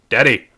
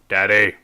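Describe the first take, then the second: First: It is said in a frustrated, demanding way. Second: The same.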